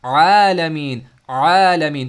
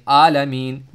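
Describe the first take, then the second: First: आलमीन drawn out long and loud with the voice circling in the middle throat; throaty ain. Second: आलमीन with a plain clipped आ, the breath stopped; wrong hamza alif. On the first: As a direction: let आलमीन flow from the throat, no stop. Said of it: "आइन से". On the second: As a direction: say आलमीन with a glottal stop, not ain. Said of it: "भाई आलमीन नहीं है". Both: Shown as a demonstration.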